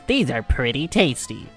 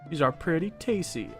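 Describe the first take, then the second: First: It is said in a put-on character voice. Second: It is said in a plain, natural voice.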